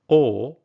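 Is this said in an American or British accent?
British. It is said in a British English accent. "British English"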